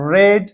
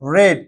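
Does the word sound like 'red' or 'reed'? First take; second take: red; red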